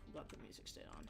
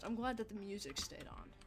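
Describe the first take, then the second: First: Quick whispered repeat, unvoiced. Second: Said in the usual way. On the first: Real, not acted. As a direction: murmur it again fast under your breath.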